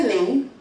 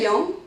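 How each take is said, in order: First: "Ling" said the Penang way, a short bright i vowel; "Ling" with a plain i vowel, stated firmly; Penang Hokkien pronunciation. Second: "Leong" said as the Taiwanese way, rounded yong vowel with a nasal ng; "Leong" with a rounded Taiwanese vowel and a rising question tune; Taiwanese pronunciation. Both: Shown as a demonstration. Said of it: "We say".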